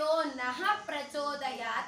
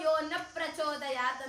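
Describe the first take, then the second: First: The word 'na' ends with a breathy h. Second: The word 'na' ends without any breathy h. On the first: God should grant us intellect. The speaker calls it right. "ನಃ ಅಂದ್ರೆ ನಮಗೆ" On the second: God should not grant us intellect. The speaker calls it wrong. "ನ ಅಂತ ಹೇಳಿದ್ರೆ ಬೇಡ"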